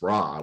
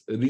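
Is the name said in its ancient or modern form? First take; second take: modern; ancient. First: The name is said in its short modern form. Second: The name is said in its reconstructed ancient form. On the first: This is the usual present-day pronunciation. The speaker calls it wrong. "most other people would pronounce Ra, which is totally wrong" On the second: This is how the name was pronounced in antiquity. The speaker calls it right. "by the time of King Tut, it was Ria"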